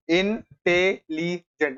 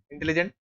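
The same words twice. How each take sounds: First: intelligent slowly pulled apart as इन-टे-ली-जेंट; syllable by syllable. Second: Said in the usual way. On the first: Shown as a demonstration. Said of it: "ऐसे बोला जाता है". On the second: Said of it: "एक बार बोल के देखो खुद से मुंह में".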